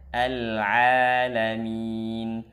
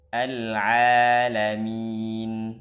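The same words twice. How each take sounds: First: The ain is pronounced light and thin. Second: The same.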